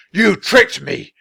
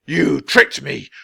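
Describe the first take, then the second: First: Much higher, louder slow roar; furious yell. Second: Slow, louder accusing wizard; first angry blast; angry accusation. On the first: Wizard screaming the accusation louder. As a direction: escalate into a full shout. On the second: Wizard accusing the children, slow and angry. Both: A narrator's reading.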